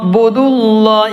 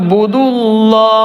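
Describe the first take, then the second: First: The vowel before 'llah' is kept short. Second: The same.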